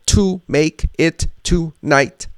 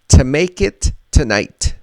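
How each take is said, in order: First: Each word is said fully and separately. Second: The words are reduced and linked together smoothly. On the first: The speaker calls it wrong. "We're not going to say" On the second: The speaker calls it right. "is going to sound like this"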